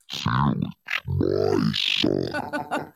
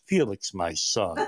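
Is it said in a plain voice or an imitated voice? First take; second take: imitated; plain. First: It imitates the priest's voice. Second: It is said in his plain voice.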